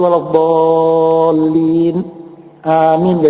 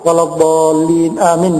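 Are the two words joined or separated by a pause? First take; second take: paused; joined. First: A very short pause separates the two words. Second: The two words run together with no pause. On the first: The speaker calls it right. "Jadi ada berhenti sejenak ini" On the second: The speaker calls it wrong. "jangan sampai sambung"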